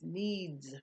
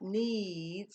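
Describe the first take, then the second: First: The word ends with a buzzing z sound. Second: The word ends with a hissing s sound. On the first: The speaker calls it right. "It's the Z sound" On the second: The speaker calls it wrong. "It's not needs"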